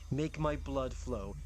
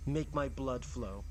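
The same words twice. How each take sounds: The two takes are said the same way.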